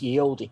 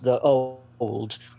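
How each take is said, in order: First: The first word begins with a y sound. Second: The first word begins with a th sound. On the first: The speaker calls it wrong. "they'll think that's how it's pronounced, ye olde. It's not" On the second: The speaker calls it right. "It's pronounced the old"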